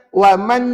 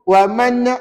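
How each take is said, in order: Both takes have the same delivery.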